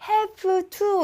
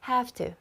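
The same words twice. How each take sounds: First: Each sound is pronounced fully and carefully. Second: The words run together in a reduced form. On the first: The speaker calls it wrong. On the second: The speaker calls it right.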